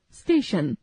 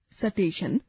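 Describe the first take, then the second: First: Said in the usual way. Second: स्टेशन said as सटेशन with a vowel pushed between स and ट; wrong pronunciation. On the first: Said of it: "शुद्ध उच्चारण". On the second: Shown as a demonstration. Teacher demonstrating the incorrect form to the class, deliberately wrong. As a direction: break the cluster: स-टेशन. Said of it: "अशुद्ध उच्चारण".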